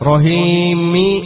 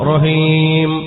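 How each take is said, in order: First: The word ends with an added i vowel. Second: The word ends on the m sound. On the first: The reciter carries on into the next verse. "നിർത്തുന്നില്ല എങ്കിൽ റഹീമി എന്നാണ്" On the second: The reciter stops after this word. "എന്നെടുത്ത് നിർത്തുമ്പോ റഹീം"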